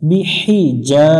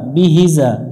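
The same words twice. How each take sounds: First: The vowel is drawn out for one count. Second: The vowel is cut short, not drawn out. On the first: The speaker calls it right. "এক আলিফ টানতে হবে" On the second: The speaker calls it wrong. "এখানে অনেকজনে ভুল করে"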